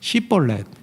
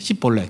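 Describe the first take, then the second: First: The word begins with a sh sound. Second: The word begins with an s sound. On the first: The speaker calls it right. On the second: The speaker calls it wrong.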